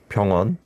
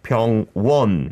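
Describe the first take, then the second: First: The first sound is pronounced plainly, without extra force. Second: The first sound is pronounced with exaggerated force. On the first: The speaker calls it right. "we would put that together as just" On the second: The speaker calls it wrong. "you really did well of pronouncing it, but maybe too much"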